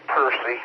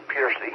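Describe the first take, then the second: First: Percy said as PUR-see; local pronunciation. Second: Piercy said as PEER-see; alternative pronunciation. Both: Shown as a demonstration. That's what it's pronounced.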